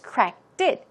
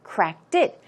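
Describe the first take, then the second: Both takes have the same delivery.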